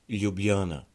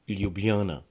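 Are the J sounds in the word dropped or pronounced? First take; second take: pronounced; pronounced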